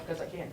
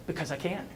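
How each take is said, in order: First: Proud. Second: Laughing. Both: Retold or imitated. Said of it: "She was all proud of herself".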